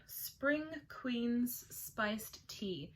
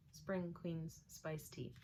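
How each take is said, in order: First: Slow, grand fairy-queen announcement; regal storybook voice. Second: Said in the usual way. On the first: Shown as a demonstration. Naming the Spring Queen's tea in a grand voice. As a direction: read it like a royal proclamation. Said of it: "I had to read it in that voice". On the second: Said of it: "Kind of a bit of a tongue twister".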